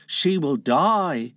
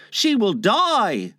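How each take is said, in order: First: Slow, resigned echo; resigned admission. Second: Put-on high, drawn-out boy's warning; high, slow, fretful boy; Tootles. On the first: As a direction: concede it slowly in an everyday pitch. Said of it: "Slightly admitted". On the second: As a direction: slowly sound the alarm in a high voice. Tootles warns Wendy will die. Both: A narrator's reading.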